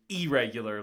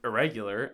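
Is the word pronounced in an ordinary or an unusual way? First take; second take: unusual; ordinary. First: The word is pronounced in an unusual way. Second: The word is pronounced in the ordinary way. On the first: The speaker calls it wrong. "like it's like an email" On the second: The speaker calls it right. "pronounces it like a normal person"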